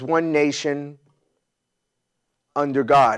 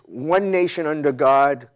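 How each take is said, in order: First: There is a pause after 'nation'. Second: It flows with no pause after 'nation'. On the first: The speaker calls it wrong. "as if there's a comma after one nation" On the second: The speaker calls it right. "if you look at the wording, it's one nation under God, comma"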